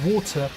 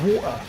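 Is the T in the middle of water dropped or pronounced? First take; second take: pronounced; dropped. First: The middle T is clearly pronounced. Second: The middle T is dropped, not pronounced. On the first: The speaker calls it right. "I've made a conscious effort to say water" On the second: The speaker calls it wrong. "instead of water"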